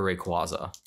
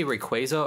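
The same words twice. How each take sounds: First: "Rayquaza" with an ah, "ray-KWAH-zuh"; "Rayquaza" pronounced with KWAH in the middle; alternate pronunciation. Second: "Rayquaza" with a long A, "ray-KWAY-zuh"; "Rayquaza" pronounced with KWAY in the middle; alternate pronunciation. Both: Shown as a demonstration. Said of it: "Do you say Rayquaza or Rayquaza".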